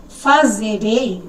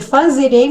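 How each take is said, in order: First: Fazerei drawn out very slowly, syllable by syllable; slow demo word. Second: Said in the usual way. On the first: Shown as a demonstration. Teacher slowly sounding out fazerei for students. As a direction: spell out fazerei slowly for the class. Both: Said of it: "em vez de escrever fazerei".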